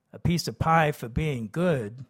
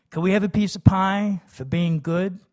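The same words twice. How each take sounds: First: Said in the usual way. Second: Higher, louder hopeful ask; eager kid. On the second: A narrator's reading. Kids begging father for pie, high and loud. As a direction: plead sweetly for a treat.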